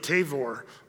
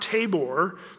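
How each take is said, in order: First: The middle consonant is a v sound. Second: The middle consonant is a b sound.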